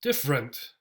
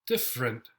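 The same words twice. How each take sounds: First: Different. con e central reducida a schwa; di-fə-rent, la e del medio débil; schwa middle. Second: Different. en dos sílabas, e casi muda; dif-rent, comiendo la e de Different; schwa middle. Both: Shown as a demonstration. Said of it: "gets the schwa".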